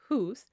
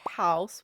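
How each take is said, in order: First: The vowel sounds like 'oo'. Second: The vowel sounds like 'ow'. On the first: This is the pronunciation before the vowel shift. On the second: This is the modern pronunciation.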